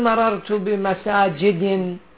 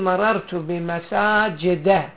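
First: The last word ends in an 'in' sound. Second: The last word ends in an 'a' sound. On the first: The speaker calls it wrong. "ما تقول مررت بمساجد" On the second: The speaker calls it right. "تقول مررت بمساجد. أولا ما أخذ تنوين، ثانيا لم يأخذ الكسرة، وإنما هنا الفتحة"

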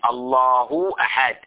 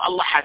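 First: Each word keeps its grammatical ending clearly voiced. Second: The words run together and the endings are lost. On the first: The speaker calls it right. "فيجب عليه إبراز الإعراب" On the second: The speaker calls it wrong. "يدمج بعضها البعض، بحيث أنه يضيع الإعراب"

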